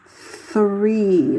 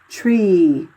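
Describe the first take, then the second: First: It begins with a soft th sound. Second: It begins with a hard t sound. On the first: This is how Americans say it. "like we say in the United States. We go the three like that" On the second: This is how people in Ireland say it. "over here in Ireland... everything comes out like tree"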